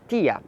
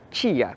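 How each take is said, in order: First: It begins with a plain t sound. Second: It begins with a ch sound. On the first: This is how some other dialects say it. "em alguns dialetos é tia" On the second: This is how the speaker's own dialect says it. "no meu dialeto é tia"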